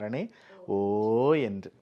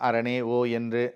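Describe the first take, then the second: First: The 'O' is drawn out long, like wailing. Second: The 'O' is short and quickly passed over. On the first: It is an endless cry of anguish. The speaker calls it right. "அந்த ஓக்கு அளவே இருக்காது" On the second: It is read as an ordinary word. The speaker calls it wrong. "நம்ம படிக்கும் பொழுது அரணே ஓ என்று அப்படி படிச்சிடுறோம்"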